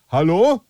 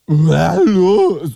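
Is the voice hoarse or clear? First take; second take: clear; hoarse. First: The voice sounds clear and normal. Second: The voice sounds hoarse and sleepy.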